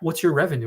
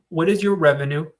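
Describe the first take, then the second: First: The question is asked in a normal voice. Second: The question is asked in a raised voice.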